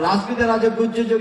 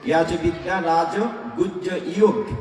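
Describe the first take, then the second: First: It is pronounced the everyday Bengali way. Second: It is pronounced the Sanskrit way.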